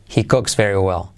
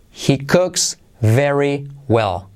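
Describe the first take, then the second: First: "He cooks very well" run together, lower pitch; connected, lower-pitched model sentence; linked natural phrase. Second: "He cooks very well" word by word; slow, separated teaching delivery; slow model phrase. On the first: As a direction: join the words up at everyday speed. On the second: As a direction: spell it out slowly for learners, word by word. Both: Shown as a demonstration. Teacher models slowly, then linked.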